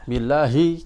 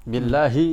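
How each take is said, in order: Both takes have the same delivery.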